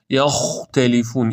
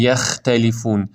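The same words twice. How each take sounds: First: Slow یختلفون with dark "yakh"; heavy first syllable in یختلفون; correct heavy خ. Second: یختلفون with light "yækh"; thin first syllable in یختلفون; wrong thin خ. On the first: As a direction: say یختلفون with thick, back خ. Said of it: "این درسته". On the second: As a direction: say یختلفون with a fronted a before خ. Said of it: "پس نخونید یختلفون". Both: Shown as a demonstration.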